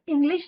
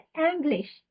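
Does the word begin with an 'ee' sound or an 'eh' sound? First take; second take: ee; eh. First: The word begins with an 'ee' vowel. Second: The word begins with an 'eh' vowel. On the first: The speaker calls it wrong. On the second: The speaker calls it right.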